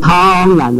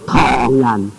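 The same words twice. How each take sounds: First: The tone makes it sound like slaughtering people. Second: The tone makes it mean Chinese people. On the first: It sounds like killing people. The speaker calls it wrong. "不是唐人啊，差一点点就是杀人啊" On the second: It refers to Chinese people. The speaker calls it right. "唐人啊"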